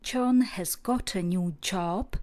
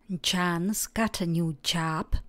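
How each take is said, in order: First: British accent, with rounded 'o' vowels. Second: American accent, with open 'a'-like vowels. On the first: "Britská angličtina" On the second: "Americká výslovnost"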